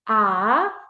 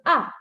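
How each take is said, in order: First: The pitch rises from low to high. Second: The pitch falls sharply and suddenly. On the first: "It is a rising tone" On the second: "the fourth tone is a falling tone"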